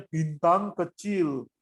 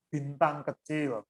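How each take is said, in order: First: BINTANG KECIL with altered vowels, a little firmer; different pronunciation. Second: BINTANG KECIL said slowly with plain vowels; one singer's pronunciation. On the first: Choir coach showing a mismatched singer, altered pronunciation. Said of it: "karena pengucapannya beda". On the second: Choir coach giving an example phrase, plainly pronounced. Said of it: "mau ngomong bintang kecil misalnya". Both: Shown as a demonstration.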